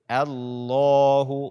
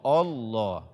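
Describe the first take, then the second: First: The opening vowel sounds light and thin. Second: The opening vowel sounds heavy and thick. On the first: The speaker calls it right. "bacalah A-nya dengan tipis" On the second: The speaker calls it wrong. "bukan Allah"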